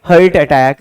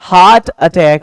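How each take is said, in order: First: The first word has the vowel of 'fur'. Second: The first word has the vowel of 'car'. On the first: The speaker calls it wrong. "इसको बहुत सारे बंदे हर्ट बोलते हैं" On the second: The speaker calls it right. "H E A R T को हम हर्ट नहीं बल्कि हार्ट पढ़ते हैं"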